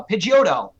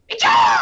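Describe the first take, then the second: First: Said in the usual way. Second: Very high, loud bird-creature cry; Pokemon voice. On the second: Shown as a demonstration. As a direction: shriek the name as the creature's call. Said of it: "different voices that I have provided".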